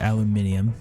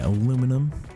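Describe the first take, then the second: First: It is said the British way, five syllables. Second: It is said the American way, four syllables.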